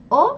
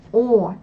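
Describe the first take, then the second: First: O short and forward in the mouth; brief French O; French vowel. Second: Full Russian O from the throat; Russian vowel. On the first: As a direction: say O briefly at the front. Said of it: "premièrement une voyelle française". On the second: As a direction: draw out O further back. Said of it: "puis une voyelle russe". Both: Shown as a demonstration.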